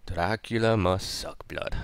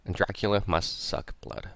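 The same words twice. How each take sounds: First: A lightly put-on, hammed-up vampire accent; terrible Dracula accent. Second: Said in the usual way. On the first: Shown as a demonstration. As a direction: do a bad Dracula accent, half-joking. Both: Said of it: "That's a terrible accent".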